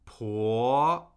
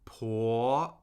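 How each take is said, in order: First: The pitch rises steadily from mid to high. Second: The pitch rises steadily from mid to high.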